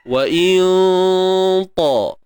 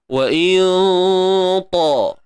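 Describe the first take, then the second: First: The nasal hum before ta is heavy and dark. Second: The same.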